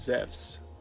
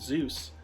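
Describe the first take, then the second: First: The name has the modern Greek pronunciation. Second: The name has the usual English pronunciation. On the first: "Zephs is how you would pronounce it in modern Greek" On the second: "instead of"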